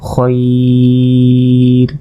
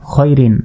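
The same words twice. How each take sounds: First: খয়র held long, "khoiii-r"; sustained খয়র closing on r; stretched pausal form. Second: Said in the usual way. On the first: Shown as a demonstration. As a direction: draw out the glide in খয়র on a level note. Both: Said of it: "ওয়াকফ করলে".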